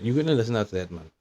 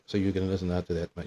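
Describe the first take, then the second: First: "gonna" lifted high and stressed; emphatic repeat. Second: Said in the usual way. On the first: Acted. Adam challenged for obeying that man, stressing "gonna". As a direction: lean hard on "gonna" in mock challenge.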